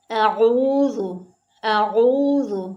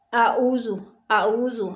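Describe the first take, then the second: First: आऊज़ु with a guttural ain from the throat and a th-like dh; correct pronunciation. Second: आऊज़ु as some people wrongly read it, a light Hindi z; wrong pronunciation. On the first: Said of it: "आऊज़ु नहीं". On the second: Teacher shows the common mistake in आऊज़ु, plain z sound. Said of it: "बाज़ लोग पढ़ते हैं". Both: Shown as a demonstration.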